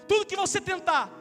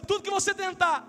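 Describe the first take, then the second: The two takes are said the same way.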